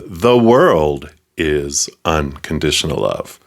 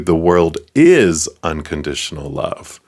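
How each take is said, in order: First: The word "world" carries the main stress. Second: The word "is" carries the main stress. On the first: All things everywhere are made of love. "Everything, everyone, everywhere" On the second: It is love now, not at some later time. "Right now, not in the future"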